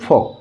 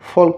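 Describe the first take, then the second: First: The l sound is silent. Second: The l sound is pronounced. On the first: The speaker calls it right. "ইয়াত এলটোক উচ্চাৰণ নকৰোঁ" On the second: The speaker calls it wrong. "ফল্ক বুলি নকওঁ"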